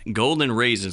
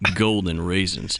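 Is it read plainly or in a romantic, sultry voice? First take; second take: plainly; romantic. First: It is read in a plain, ordinary way. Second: It is read in a romantic, sultry voice.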